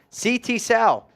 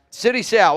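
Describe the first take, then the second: First: The name Sal rhymes with cow. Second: The name Sal rhymes with pal. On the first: "Rhymes with cow" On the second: "I don't know if you're saying that right"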